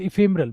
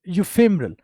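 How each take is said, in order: First: The word begins with an 'ih' sound. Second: The word begins with a 'yoo' sound. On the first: The speaker calls it right. "इफेमरल बोल दे या फेमरल" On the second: The speaker calls it wrong. "मैं यू पढ़ गया, गलत था वो"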